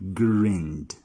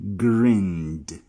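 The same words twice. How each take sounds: Both takes have the same delivery.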